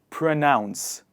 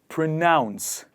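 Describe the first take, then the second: The two takes are said the same way.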